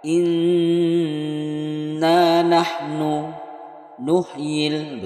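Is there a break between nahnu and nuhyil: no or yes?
yes. Nahnu and nuhyil are read with a break between. The speaker calls it wrong. "Tidak boleh dibaca inna nahnu nuhyil, begitu, tidak boleh"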